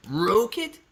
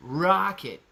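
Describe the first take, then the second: First: Rocket as a higher ROH-kit question. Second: Rocket with an open "ah"; your rocket. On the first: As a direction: ask "Rocket" with a long oh, pitched up. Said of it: "I say rocket". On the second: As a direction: say "Rocket" as RAH-kit. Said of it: "you say rocket". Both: Shown as a demonstration.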